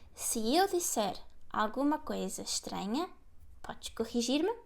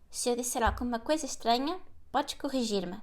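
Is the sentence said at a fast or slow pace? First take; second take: slow; fast. First: The sentence is said at a slower pace. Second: The sentence is said at a faster pace. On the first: "let me repeat it for you" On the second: "And faster"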